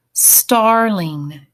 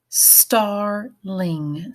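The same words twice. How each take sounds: First: Said in the usual way. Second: "Starling" in two drawn-out beats, star, then ling; split into syllables. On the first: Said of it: "write down the word". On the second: Shown as a demonstration. Teacher has students think about the syllables, "Starling" split in two. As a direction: break "Starling" between its syllables. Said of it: "think about the syllables".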